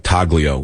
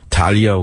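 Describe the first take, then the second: First: The g sound is clearly pronounced. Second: The g sound is left silent. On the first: "so I say Taglio, because it's easier to tell to the, the clerk" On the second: "you're not supposed to pronounce the, the G"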